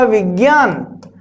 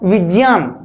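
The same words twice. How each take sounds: First: The middle consonant is a g sound. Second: The middle consonant is a j sound. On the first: The speaker calls it wrong. "हमने उच्चारण किया विज्ञान" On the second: The speaker calls it right. "इसका उच्चारण सही होगा विज्ञान"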